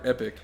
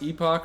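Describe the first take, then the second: First: The second syllable sounds like 'ick'. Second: The second syllable sounds like 'ock'. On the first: The speaker calls it right. "We do Epic" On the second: The speaker calls it wrong. "call it Epoch"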